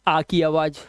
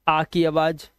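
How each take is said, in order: The two takes are said the same way.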